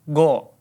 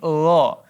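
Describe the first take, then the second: First: It is said as a plain hard go. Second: It is said as a soft throaty gha. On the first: The speaker calls it wrong. "dan bukan juga go" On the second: The speaker calls it right. "tapi gha"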